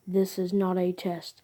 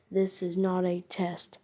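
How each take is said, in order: Both takes have the same delivery.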